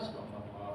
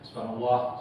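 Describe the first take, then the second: First: It is said softly and gently. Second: It is said with forceful pressure.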